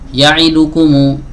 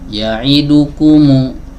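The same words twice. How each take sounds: First: Some short vowels are clipped and rushed. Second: Every short vowel gets the same even length. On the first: The speaker calls it wrong. "ini kesalahan" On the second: The speaker calls it right. "Yang benar ... satu harokat"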